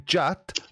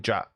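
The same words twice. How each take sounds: First: The name is said slowly, over-clearly and sarcastically. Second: The name is said in a casual, friendly way. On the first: The speaker thinks the listener is an idiot. "in as sarcastic a way as I possibly can" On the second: The speaker likes the listener. "that would be the friendly thing to do"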